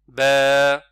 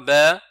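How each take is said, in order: First: The vowel is held for two counts. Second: The vowel is cut off very short. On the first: The speaker calls it right. "c'est ba. C'est juste ça" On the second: The speaker calls it wrong. "c'est trop court"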